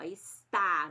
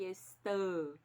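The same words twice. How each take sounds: First: Drawn-out "está" with a loud, open final A. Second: "estão" drawn out with closed nasal "ão"; closed nasal ending. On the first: Teacher repeating the example for pupils, "está" with wide-open A. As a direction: lean long on the open A of "está". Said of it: "esse A é bem aberto". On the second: Teacher contrasting it with está, "estão" ending closed and nasal. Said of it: "não é a mesma coisa que". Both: Shown as a demonstration.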